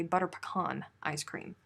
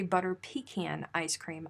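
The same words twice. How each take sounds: First: "pecan" as puh-KAHN in butter pecan; preferred puh-KAHN. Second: "pecan" as pee-CAN in butter pecan; rejected pee-CAN. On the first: Showing her ice cream usage, "pecan" as puh-KAHN. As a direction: say "pecan" with a short first syllable and AH. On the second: Showing what she doesn't say, "pecan" as pee-CAN. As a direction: say "pecan" with long EE, then CAN. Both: Shown as a demonstration. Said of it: "I say butter pecan ice cream".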